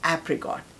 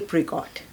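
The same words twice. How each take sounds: First: It is said with an American pronunciation. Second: It is said with a British pronunciation. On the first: "American कहेंगे एप्रिकॉट" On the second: "British कहते हैं एप्रिकॉट"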